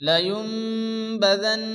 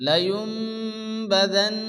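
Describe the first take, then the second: The two takes are said the same way.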